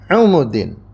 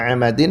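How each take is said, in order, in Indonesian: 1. Dua vokal pertama adalah bunyi u. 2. Dua vokal pertama adalah bunyi a. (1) "Ain dan mimnya di dhamma" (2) "Yang pertama Amadin seperti biasa"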